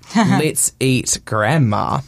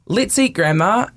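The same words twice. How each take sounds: First: There is a pause before the last word. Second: The words run together without a pause. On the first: The speaker invites grandma to eat. "or are you saying to your grandma, let's go have dinner?" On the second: The speaker proposes eating grandma. "Are you a cannibal"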